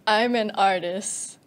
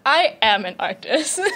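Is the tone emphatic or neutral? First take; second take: neutral; emphatic. First: It is said flatly, like a routine order. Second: It is said with strong, proud emphasis.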